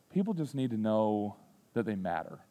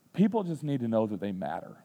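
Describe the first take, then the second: First: Sincere repeat. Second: Softer, gentle fatherly words; tender advice. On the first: Shown as a demonstration. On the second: Retold or imitated. Dad teaching son kindness, soft and sincere. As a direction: quietly tell your son what matters. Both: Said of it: "That's what I told him".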